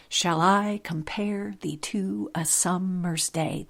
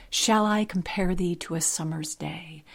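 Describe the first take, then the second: First: Slow line, stressing I, pare, to, sum, day; iambic stress. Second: Said in the usual way. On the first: Shown as a demonstration. Podcaster showing pentameter in a sonnet line, iambic stress. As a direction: beat out every second syllable of the line, slowly. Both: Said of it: "That's iambic pentameter".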